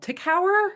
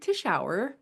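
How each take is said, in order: First: The surname is said like the words tick hour. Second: The surname is said the way its owner says it. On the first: This is how most people say it. The speaker calls it wrong. "That's probably what you get normally" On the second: This is how the name's owner says it. The speaker calls it right. "I pronounced it properly"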